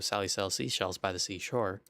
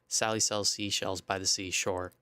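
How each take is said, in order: First: The S sounds are quieter and softened. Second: The S sounds are loud and harsh. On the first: The speaker calls it right. "if I turn it on ... it's now a lot better" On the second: The speaker calls it wrong. "when I have it off ... the S sounds are kind of super harsh"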